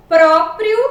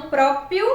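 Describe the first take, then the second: First: "Próprio" with both r sounds, loud; correct pronunciation. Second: "próprio" without the second r: própio; wrong pronunciation. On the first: Teacher giving the proper form, emphatic "Próprio". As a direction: punch out "Próprio" with r in each syllable. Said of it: "a forma adequada e a forma inadequada". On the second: Teacher showing the improper form, "próprio" as própio. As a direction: drop the last r in "próprio". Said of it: "e não próprio". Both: Shown as a demonstration.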